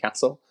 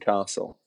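First: The first vowel is a short A. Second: The first vowel is a long A. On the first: "He is from Yorkshire" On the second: "my mum pronounces the long A"

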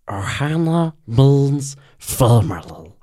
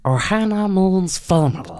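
First: The Stitch voice is lower pitched. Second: The Stitch voice is higher pitched.

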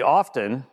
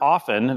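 First: The t in the word is pronounced. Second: The t in the word is silent. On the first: The speaker calls it wrong. "The T's supposed to be silent?" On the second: The speaker calls it right. "that's the way it's supposed to be said"

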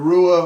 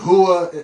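First: The name begins with an English R sound. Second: The name begins with an H sound. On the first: The speaker calls it wrong. "instead of" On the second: The speaker calls it right. "the Brazilians pronounce their R's with a H sound"

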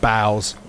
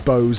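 First: The vowel rhymes with 'cows'. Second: The vowel rhymes with 'goes'. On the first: The word means bending forward at the waist. The speaker calls it wrong. "and not bows" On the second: The word means weapons for shooting arrows. The speaker calls it right. "it was bows"

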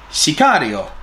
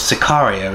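First: It is pronounced with a Spanish-style accent. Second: It is pronounced with an English-style accent. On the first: The speaker calls it right. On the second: The speaker calls it wrong.

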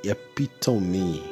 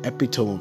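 First: The word ends with a final 'ee' sound. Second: The word ends like 'tome', without a final 'ee'. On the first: The speaker calls it right. "the correct pronunciation" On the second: The speaker calls it wrong. "I have been saying the epitome of eloquence all along until I got the correct pronunciation"

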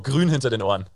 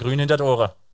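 First: It is said in plain standard German. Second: It is said in a local village accent.

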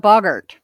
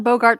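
First: The first syllable sounds like 'bog'. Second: The first syllable sounds like 'bo' in 'boat'. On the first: The speaker calls it right. "It is a boggart" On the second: The speaker calls it wrong. "it is not a Bogart like Humphrey"

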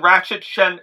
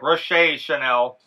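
First: The first name sounds like the word ratchet. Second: The first name sounds like a short rosh. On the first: The speaker calls it wrong. "where I come from, we pronounce it ratchet" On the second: The speaker calls it right. "I'm sorry"

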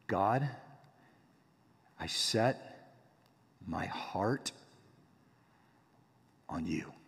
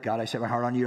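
First: It is said slowly and deliberately. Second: It is said fast and hurried.

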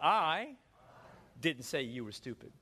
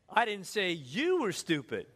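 First: The stress is on the word I. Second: The stress is on the word you.

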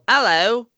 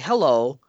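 First: It is said in a British accent. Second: It is said in an American accent.

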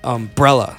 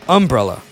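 First: The stress is on the second syllable. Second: The stress is on the first syllable. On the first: "not umbrella" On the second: "she puts the emphasis on the first syllable"

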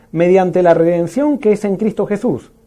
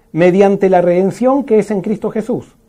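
The two takes are said the same way.

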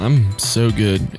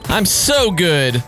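First: It is said in a low, subdued voice. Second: It is said in a high voice.

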